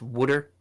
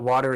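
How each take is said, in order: First: It is said in a New Jersey accent. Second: It is said in a standard accent.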